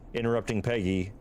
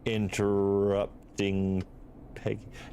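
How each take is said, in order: First: It is said at normal speed. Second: It is said more slowly.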